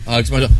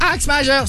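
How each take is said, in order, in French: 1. La phrase est grave. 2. La phrase est aiguë. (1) "C'est deux tons en dessous" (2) "N'allez pas me le chercher haut"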